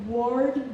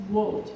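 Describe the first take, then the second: First: Said in the usual way. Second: "wood" as "word" with a silent r; British dropped R. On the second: Shown as a demonstration. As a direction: say "word" without its r, near "wood". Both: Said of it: "letter R is not pronounced".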